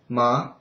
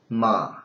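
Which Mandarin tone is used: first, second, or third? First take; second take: second; third. First: The syllable follows the second tone. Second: The syllable follows the third tone. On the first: It means a tingling sensation. "If you change it to second, it'll sound like ma" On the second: It means horse. "in the third intonation it sounds like ma"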